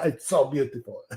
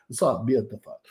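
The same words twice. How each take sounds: First: Mock French accent, playfully done; a hint of hammed-up French. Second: Playful mock Italian accent. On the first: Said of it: "It's very French there". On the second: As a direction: say it with a put-on Italian lilt. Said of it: "Although that's a bit Italian".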